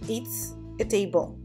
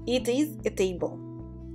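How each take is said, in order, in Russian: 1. Глагол сокращается до короткого «s». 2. Глагол произносится как полное слово.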